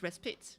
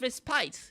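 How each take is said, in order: First: It is said with an American pronunciation. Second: It is said with a British pronunciation. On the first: "but in American English, it's respite" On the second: "So it's respite in English"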